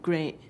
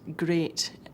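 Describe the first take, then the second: First: The final t is a glottal stop. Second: The final t is a clear t.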